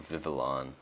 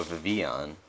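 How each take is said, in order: First: Vivillon said as "VIV-uh-lon", with the L; corrected pronunciation. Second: Vivillon said as "vi-VEE-on", without the L; mistaken pronunciation. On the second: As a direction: slip on Vivillon, dropping its L to "vee-on". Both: Real, not acted. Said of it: "sorry, Vivillon".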